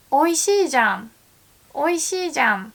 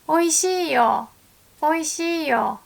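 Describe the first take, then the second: First: Oishiijan with a firm, slightly contradicting じゃん; surprised emphasis. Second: Oishiiyo with a bright, telling よ; informing tone. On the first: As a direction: punch Oishiijan as if proving a point. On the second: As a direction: hand over Oishiiyo as news. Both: Shown as a demonstration. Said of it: "compare じゃん andよ".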